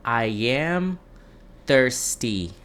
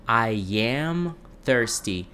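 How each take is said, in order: First: Said in the usual way. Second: I am thirsty said very slowly, each word apart; slow model repeat. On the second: Shown as a demonstration. Teacher modeling for Brazilian students, very slow and clear. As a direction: spell out I am thirsty slowly for learners. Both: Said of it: "a gente vai falar assim".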